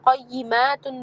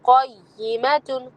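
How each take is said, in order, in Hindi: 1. m के बाद वाला स्वर लंबा है। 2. m के बाद वाला स्वर छोटा है।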